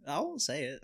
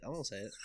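First: Said in the usual way. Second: Softer repeat; quiet. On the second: Shown as a demonstration. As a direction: say it under your breath.

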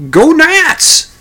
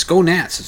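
First: High, loud furious shout of "Go Nats!"; angry yell. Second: Said in the usual way. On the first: Retold or imitated. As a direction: bellow "Go Nats!" back at the rival fan. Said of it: "the other fella yells at him".

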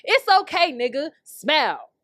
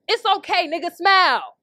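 First: Slow slogan read. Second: Mock slogan. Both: Shown as a demonstration. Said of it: "I should make that t-shirt".

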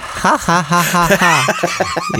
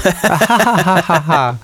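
First: Mock cartoon ha ha ha; a hammed-up cartoon laugh. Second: Higher, bigger cartoon ha ha; cartoon laugh. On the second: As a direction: push the cartoon laugh harder. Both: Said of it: "Cartoon laugh".

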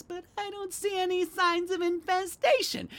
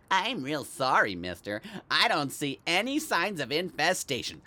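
First: High, whiny parroting voice; mocking singsong in a very high voice; mocking exterminator kid. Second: Lightly voiced exterminator kid; mildly mocking imitation of a young exterminator; imitated exterminator kid. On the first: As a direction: mimic the kid like a broken record. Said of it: "Kid was like a broken record". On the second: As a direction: give a hint of the apologetic company kid. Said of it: "like the one they sent from the exterminators".

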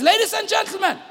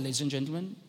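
First: High-pitched call for attention; slightly raised volume. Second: Low, soft cabin announcement; calm captain's voice. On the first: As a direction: imitate a pilot calling over the cabin noise. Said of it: "raises the volume a little bit". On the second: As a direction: imitate an unruffled pilot on the intercom. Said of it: "he speaks in a calm voice". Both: Retold or imitated.

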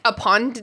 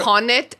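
First: UPON with a T run onto the end; tentative UPON'T as one word; contracted. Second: UPON IT as two separate words, questioning; tentative UPON IT, ending on a rise; sounded out. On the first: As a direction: squeeze UPON IT into UPON'T, questioning. Trying the contracted form aloud. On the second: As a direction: say UPON IT in full, with IT distinct. Sounding out an unfamiliar contraction. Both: Shown as a demonstration.

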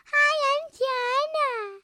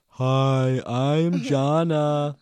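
First: Very high, slow singsong introduction; Jana. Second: Loud, high, drawn-out mock kid voice; Jana. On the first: Shown as a demonstration. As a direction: show off a loud, stretched little squeal of a greeting. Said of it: "You have to sound like me". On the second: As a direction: exaggerate a child's greeting at full volume. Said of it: "You sound like this".

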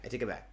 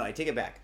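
First: Softer, trailing repeat of I take it back; quieter repeat. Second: Said in the usual way. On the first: Real, not acted. Comic retracting his summer complaint, softer repeat. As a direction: mutter it again to yourself. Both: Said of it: "Okay, no, no".

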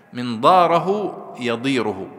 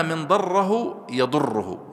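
First: Slow, loud "ضاره يضيره" with long aa, then long ii; long vowel, single r. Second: Slow "ضره يضره" with short vowels and a held double ر; doubled r. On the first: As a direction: stretch the vowels in "ضاره يضيره", keep ر light. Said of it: "وفي قراءة أخرى بالتخفيف". (مد الألف والياء وتخفيف الراء في "ضاره يضيره") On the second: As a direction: lean on the shadda in "ضره يضره". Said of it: "بالتشديد". (تشديد الراء في "ضره يضره") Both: Shown as a demonstration.

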